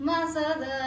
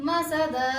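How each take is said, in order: No difference in how they are said.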